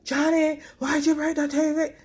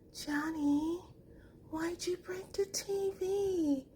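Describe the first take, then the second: First: It is shouted loudly and angrily. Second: It is said in a soft, sweet tone.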